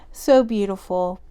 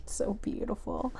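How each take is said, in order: First: Said in the usual way. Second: Soft, breathy-free hush, almost to herself; hushed awe. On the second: Real, not acted. Reader moved, murmuring in soft awe to viewer. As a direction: murmur it in quiet wonder.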